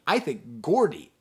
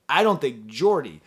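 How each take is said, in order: First: Gordy opened on a hard g sound. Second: Jordy opened on a j sound, not a hard g; soft J. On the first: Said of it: "I keep using the American pronunciation". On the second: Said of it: "when I see the name Gordy". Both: Shown as a demonstration.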